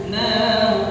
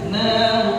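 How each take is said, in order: No difference in how they are said.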